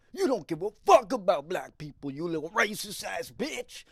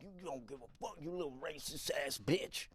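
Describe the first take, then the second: First: Loud, high angry yelling; angry man yelling at a stranger; furious yell. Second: Much softer muttered grumble under the breath; man still mumbling insults as he follows. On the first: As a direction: scream the accusation right at him. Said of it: "And he goes". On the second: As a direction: keep grumbling it to yourself. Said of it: "still mumbling". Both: Retold or imitated.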